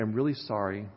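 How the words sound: It is said softly and humbly.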